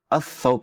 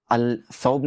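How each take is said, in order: First: "अस सौब" with the lam merged into a doubled S; correct assimilation. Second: "अल सौब" with the L sounded, marked as wrong; wrong pronunciation. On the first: Teacher gives students the correct sun-letter form. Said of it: "कहेंगे". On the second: Teacher shows students the wrong form with lam. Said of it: "नहीं कहेंगे". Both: Shown as a demonstration.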